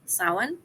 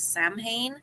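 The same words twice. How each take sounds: First: Some letters are not sounded as spelled. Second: Every letter is sounded as it is spelled. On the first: The speaker calls it right. "Samhain is how it's said" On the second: The speaker calls it wrong. "you th- might think it is Samhain. This is not accurate"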